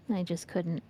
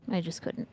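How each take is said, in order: Both takes have the same delivery.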